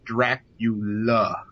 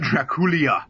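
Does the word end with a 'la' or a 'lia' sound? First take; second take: la; lia. First: The word ends with a plain 'la' sound. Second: The word ends with an added 'lia' sound. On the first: The speaker calls it right. "it is Dracula" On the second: The speaker calls it wrong. "not Draculia"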